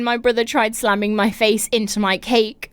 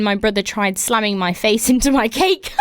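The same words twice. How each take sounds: First: Said in the usual way. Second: Words broken by giggles; can't hold back the laugh mid-sentence; laughing through it. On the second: Real, not acted. Host reading a listener story, laughing through the words.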